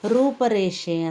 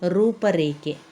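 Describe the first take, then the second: First: The last syllable begins with an 'sh' sound. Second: The last syllable begins with a 'kh' sound. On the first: The speaker calls it wrong. "ಅಂತ ಹೇಳ್ತೇವೆ" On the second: The speaker calls it right. "ಸರಿಯಾದ ಪದ"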